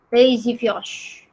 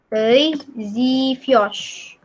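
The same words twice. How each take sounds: First: "Te zivyosh" joined up, a little slow; pronunciation demo. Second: "Te zivyosh" very slowly, word by word; slow pronunciation demo. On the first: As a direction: run "Te zivyosh" together as a phrase. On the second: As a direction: stretch "Te zivyosh" with a pause between words. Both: Shown as a demonstration. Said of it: "ini bacanya".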